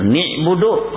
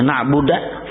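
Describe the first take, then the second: First: The first vowel is i instead of a. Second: The final vowel is a instead of u. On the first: "dibacanya ni'budu kada berubah juga arti" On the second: "dibacanya na'buda, kada berubah arti"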